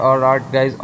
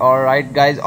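No difference in how they are said.

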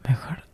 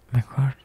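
Both takes have the same delivery.

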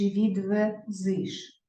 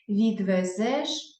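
First: "відвезиш" very slow with final иш; и instead of е. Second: "Відвезеш" very slow with final еш; clear е vowel. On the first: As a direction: sound out the wrong и ending of "відвезиш". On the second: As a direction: draw out the open е ending of "Відвезеш". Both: Shown as a demonstration. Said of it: "Відвезеш чи відвезиш".

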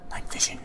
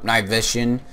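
First: Whispered under the breath; whispering. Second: Said in the usual way. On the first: Shown as a demonstration. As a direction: breathe it out, voiceless. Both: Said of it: "Nope, night vision".

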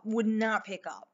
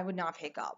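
First: "would not pick up" slowed down, each word weighted; emphatic repeat. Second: Said in the usual way. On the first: Real, not acted. Storyteller on the unreachable driver, "would not pick up" said slowly and emphatically.

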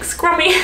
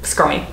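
First: Put-on high-pitched sweet old granny; lightly voiced old lady savouring a cake; mock little old grandma. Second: Said in the usual way. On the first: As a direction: coo the word like a delighted old grandma. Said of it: "like a little old grandma being like". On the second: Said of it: "Makes me feel like an old lady".

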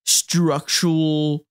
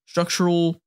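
First: Very slow, stretched-out word; drawn out. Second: Said in the usual way. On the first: Real, not acted. Describing Lloyd's mind, slow stretched "structural".

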